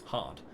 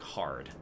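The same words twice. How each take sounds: First: The R sound at the end is silent. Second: The R sound at the end is strongly pronounced. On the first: "we just open up" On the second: "really hitting into that R and being like hard"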